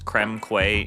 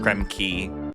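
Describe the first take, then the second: First: The last word sounds like kway. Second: The last word sounds like key. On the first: This is the common assumed pronunciation. The speaker calls it wrong. "Shout out to everybody who thought this world was creme quay, including myself" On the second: This is the intended British pronunciation. The speaker calls it right. "It's like a British thing"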